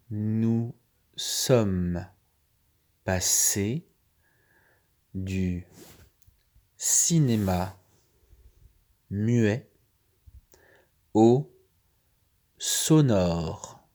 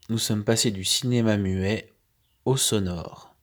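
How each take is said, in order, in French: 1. La phrase est lue à un rythme plus lent. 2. La phrase est lue à un rythme normal.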